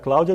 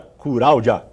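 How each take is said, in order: First: The name starts with a plain 'cl' cluster. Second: The name starts with 'cur', a vowel breaking the cluster.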